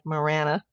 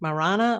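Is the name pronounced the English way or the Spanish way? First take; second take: English; Spanish. First: The name is given an English pronunciation. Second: The name is given a Spanish pronunciation. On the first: "the English way" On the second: "the Spanish way"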